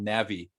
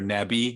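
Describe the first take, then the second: First: It is pronounced the English way. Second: It is pronounced the local Korean way.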